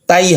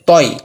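First: The vowel sounds like a thin 'ai'. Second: The vowel sounds like a full, rounded 'oi'. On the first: The speaker calls it wrong. "তাই হবে না" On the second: The speaker calls it right. "তাই হবে না তই"

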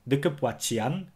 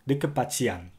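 First: A 'w' sound comes before the 'a'. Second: No 'w' sound comes before the 'a'. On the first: "Some people will prefer to say" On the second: "while others may say"

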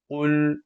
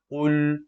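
Both takes have the same delivery.

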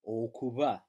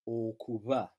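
Both takes have the same delivery.

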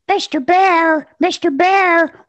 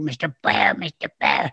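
First: The little duck voice sounds clear and smooth. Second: The little duck voice sounds rough and raspy. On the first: The speaker calls it right. "one day out of my little 11-year-old mouth came" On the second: The speaker calls it wrong. "it came out real raspy"

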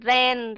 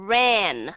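First: The R is a Vietnamese R, lips not rounded. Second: The R is an English R, lips rounded. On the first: "nếu mà đọc theo âm R của tiếng Việt Nam" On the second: "các bạn nhớ u cái miệng lại"

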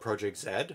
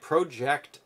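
First: The letter is said the Canadian way, zed. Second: The letter is said the American way, zee.

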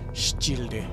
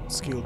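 First: The word begins with a 'ch' sound. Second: The word begins with a 'sk' sound. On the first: "if it was actual Latin, C-I, I think would be pronounced chi" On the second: "But I assume it's supposed to be like skilled"

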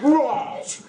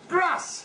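First: The word is said in a posh accent. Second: The word is said in an ordinary accent. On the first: This is how the upper class says it. "they say grass" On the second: This is how everyone else says it. "everybody knows it's grass"

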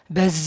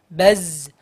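First: Air escapes audibly with the z sound. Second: The air is held back with little release. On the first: The speaker calls it wrong. "jangan sampai baz keluar udaranya" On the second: The speaker calls it right. "udaranya tertahan ya"

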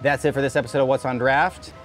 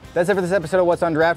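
First: It is said plainly, without much emotion. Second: It is said with more emotion and energy.

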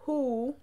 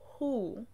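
First: The H at the start is strong. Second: The H at the start is soft. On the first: The speaker calls it wrong. "Not who" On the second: The speaker calls it right. "This is soft H and U"

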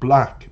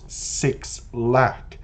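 First: The name is said as one syllable, 'black'. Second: The name is said as 'six lack', three syllables. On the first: The speaker calls it right. "the proper pronunciation" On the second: The speaker calls it wrong. "not Six Lack"

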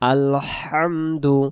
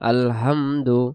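First: The h is pressed hard from the throat. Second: The h is a soft, light breath. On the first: The speaker calls it right. "সেখানে আছে লম্বা হা, গলাটা চাপ দিয়ে পড়ব হা" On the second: The speaker calls it wrong. "যদি আমি বলি আলহামদু... তখন এই গোল হা আসতেছে"

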